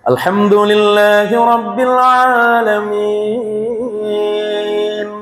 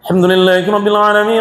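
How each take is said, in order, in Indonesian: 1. Dibaca dengan lambat dan merdu. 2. Dibaca sangat cepat, kata-katanya saling bersambung. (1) "Jadi dengan memperindah" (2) "Dengan kecepatan tiga ratus enam puluh kilometer per jam"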